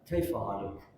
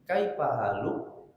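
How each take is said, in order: First: It is said with Arab intonation. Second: It is said with Sundanese intonation.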